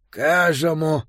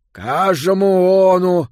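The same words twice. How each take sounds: First: Mushy lipless consonants; mouthless mumble. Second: Louder, slow mushy call; mouthless mumble. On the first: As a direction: speak through a tiny mouth hole. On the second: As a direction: call out with no real lips. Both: A narrator's reading. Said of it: "сквозь каплевидное отверстие".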